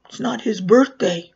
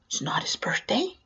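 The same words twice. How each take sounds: First: Retold child's firm correction; matter-of-fact correction. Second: Softer, "birthday" rising as a question; feigned puzzled question. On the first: Siblings on the couch to the clown, firm correction. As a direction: state "birthday" as a firm falling correction. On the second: Retold or imitated. Clown back to the siblings, "birthday" rising in feigned puzzlement. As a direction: lift "birthday" at the end, querying it.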